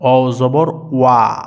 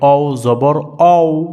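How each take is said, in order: First: The final syllable sounds like 'wa'. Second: The final syllable sounds like 'aw'. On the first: The speaker calls it right. "ঠিক এরকম একটা উচ্চারণ হবে ওয়া জবর ওয়া।" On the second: The speaker calls it wrong. "এটা কিন্তু ভুল।"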